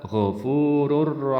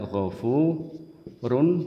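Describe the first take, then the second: First: The final n becomes an r sound. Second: The final n is clearly pronounced. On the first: "tapi dibaca ghafurur rahim, n-nya hilang" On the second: "tulisannya ghafurun"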